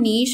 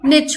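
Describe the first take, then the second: First: It has a long 'ee' vowel and ends in 'sh'. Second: It has a short 'i' vowel and ends in 'ch'. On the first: "इसका correct pronunciation नीश होता है" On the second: "या फिर निच होता है"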